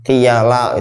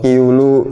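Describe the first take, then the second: First: The word is read with vowels i, a, a. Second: The word is read with vowels i, u, u. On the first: "kalau asal baca mungkin bisa dibaca macam-macam" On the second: "tapi nggak boleh"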